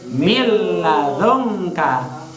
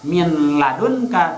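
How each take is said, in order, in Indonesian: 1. Bunyi n menyatu menjadi l yang dobel. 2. Bunyi n diucapkan sebelum l. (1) "tapi mil ladunka" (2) "jangan dibaca min ladunka"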